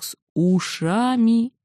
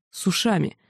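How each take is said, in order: First: "с ушами" drawn out very slowly, stressed. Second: Said in the usual way. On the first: A narrator's reading. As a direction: stretch every sound of "ушами". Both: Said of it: "Даже не так".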